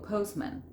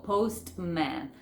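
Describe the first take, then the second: First: "postman" with no t, pos-man; silent T. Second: "postman" with the t sounded, post-man; over-articulate the t in "postman"; T fully pronounced. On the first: Teacher showing what to say instead, T dropped. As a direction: glide from s to m in "postman". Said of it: "yo no digo postman, digo postman". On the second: Teacher showing what not to say, T sounded. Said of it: "Fíjense que yo no digo". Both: Shown as a demonstration.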